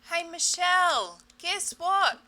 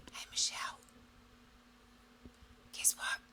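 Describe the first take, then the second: First: Higher, louder, slower call. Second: Soft, breathy whisper; body whispering. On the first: Her body calling Michelle louder to be noticed. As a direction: raise it to get attention. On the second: Her body whispering a first warning to Michelle. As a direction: whisper it like a faint hint. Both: Pretend.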